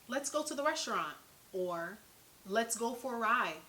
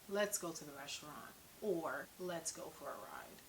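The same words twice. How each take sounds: First: The voice is lively, varied and high pitched. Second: The voice is flat, dull and monotone. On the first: The speaker calls it right. "we all have a natural rhythm and tone to our voice that conveys meaning" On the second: The speaker calls it wrong. "I wouldn't say ... because that sounds boring"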